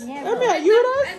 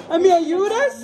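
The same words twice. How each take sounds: First: Slow, whining imitation of the boy; drawn-out mock plea; mocking whiny child. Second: Said in the usual way. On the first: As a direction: tease him by copying his whine. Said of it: "mocking the child's plea". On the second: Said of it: "repeated mocking".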